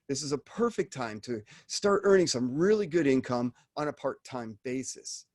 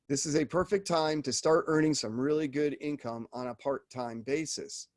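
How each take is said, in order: First: It is said with lively energy and inflection. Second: It is read flatly with no energy. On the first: The speaker calls it right. "the inflections are important too" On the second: The speaker calls it wrong. "You're not just reading this as ... there's no energy behind that"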